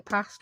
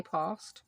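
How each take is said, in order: First: PAST with a short, flat Yorkshire "a"; Yorkshire pronunciation. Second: PAST with a long, southern "ah"; posh pronunciation. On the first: Yorkshire vlogger showing how locals say it, short-a PAST. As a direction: say PAST with the vowel of "cat". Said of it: "I'm from Yorkshire, we say past". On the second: Yorkshire vlogger showing what locals don't say, long-vowel posh PAST. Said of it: "we don't say past". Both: Shown as a demonstration.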